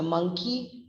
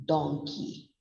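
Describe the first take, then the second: First: "monkey" as "MUNG-kee"; contrasting vowel. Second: "donkey" as "DONG-kee"; contrasting vowel. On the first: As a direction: say "monkey" with a short uh. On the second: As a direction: say "donkey" slowly with a rounded o. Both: Shown as a demonstration. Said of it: "The pronunciation is changing".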